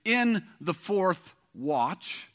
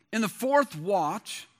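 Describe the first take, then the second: First: Each word laid down slowly; slow emphatic reading. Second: Said in the usual way. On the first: Shown as a demonstration. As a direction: read it slow, letting it land.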